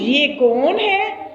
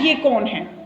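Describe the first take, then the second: First: It is asked in a marked, admiring tone. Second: It is asked in a plain, neutral tone. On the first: The speaker wants to hear the person's praises. "सिर्फ मेरा लहजा बदलेगा" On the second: The speaker simply wants to know who the person is. "मैंने सादा अंदाज में कहा"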